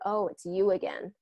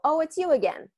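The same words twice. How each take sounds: First: The voice comes down, sounding slightly nasty. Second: The voice is pitched high throughout. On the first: "My tone comes, it comes down. ... a little bit of a nastiness to it" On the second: "It's a higher tone"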